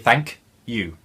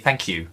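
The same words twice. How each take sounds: First: The k and y sounds stay separate. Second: The k and y merge into one sound. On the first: The speaker calls it wrong. "On paper, we should say thank you, thank you, but we don't" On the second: The speaker calls it right. "We say thank you, thank you, Q part, which apparently is the palletization of the sound"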